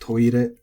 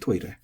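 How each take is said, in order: First: The pitch stays flat with no drop. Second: The pitch has an accent with a drop. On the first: This is the common everyday way people say it. "I've heard pronounced toire flat quite a bit" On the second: This is the dictionary standard form. "just in case you want to impress your local N H K reporter or announcer"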